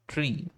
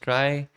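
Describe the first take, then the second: First: The word has the vowel of 'see'. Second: The word has the vowel of 'eye'. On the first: "some pronounce it tree" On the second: "Other authors pronounce it try"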